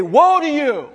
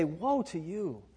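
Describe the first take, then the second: First: Louder, higher mock shout at a driver; mock road-rage curse. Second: Softer, slow, sorrowful warning to a loved one; grieving warning. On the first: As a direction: yell it at someone who cut you off, half in jest. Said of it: "I'm gonna say". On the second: Pretend. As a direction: say it gently, with regret and grief. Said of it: "spoken out of a heart that cares".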